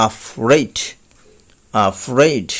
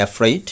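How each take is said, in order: First: Afraid as "aa-FRAID", falling; correct pronunciation. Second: Afraid starting with "e", "ef-raid"; common mispronunciation. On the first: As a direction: open afraid with a clear "a" sound. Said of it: "কিন্তু সঠিক উচ্চারণ হবে". (afraid-এর সঠিক উচ্চারণ "আফ্রেইড") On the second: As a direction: say afraid the usual way, rising, "efreid". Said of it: "আমরা এই শব্দটি বলে থাকি". (afraid-এর প্রচলিত উচ্চারণ "এফ্রেইড") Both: Shown as a demonstration.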